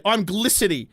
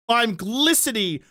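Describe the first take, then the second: First: Said in the usual way. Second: GLISTENING stretched out slowly; slow, emphatic repeat of glistening; drawn-out emphasis. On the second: Real, not acted. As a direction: draw out the word glistening for comic emphasis.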